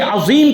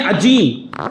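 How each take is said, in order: First: عظیم with z, never a j, in the middle; correct pronunciation. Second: عجیم, the z turned into j; mispronunciation with j. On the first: Shown as a demonstration. Preacher showing listeners the true word, عظیم pronounced with z. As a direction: say عظیم with a buzzing z sound. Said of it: "ہم پڑھ رہے ہیں عجیم". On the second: Retold or imitated. Preacher imitating how worshippers misread the word, عجیم said with j. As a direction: say عجیم with a hard j replacing the z. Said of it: "لیکن ہم پڑھ رہے ہیں".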